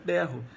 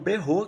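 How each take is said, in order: First: The stress is on the first syllable. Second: The stress is on the second syllable. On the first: "A sílaba tônica de berro é, é, no, é a primeira" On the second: "a musicalidade pede que a tônica seja no, no rô de berro"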